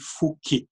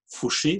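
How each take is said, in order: First: The middle consonant is a 'k' sound. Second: The middle consonant is a 'sh' sound. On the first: This is how it is said in the Caux region of Normandy. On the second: This is the standard French form.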